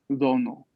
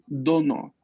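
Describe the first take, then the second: First: The d is pronounced soft and light. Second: The d is pronounced strong and firm. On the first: The speaker calls it wrong. "no es dono, no es más suave, como lo pronunciaríamos en español" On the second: The speaker calls it right. "la D también es fuerte"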